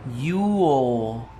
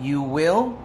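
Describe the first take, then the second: First: One contracted syllable, will reduced. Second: Two full words, will fully pronounced.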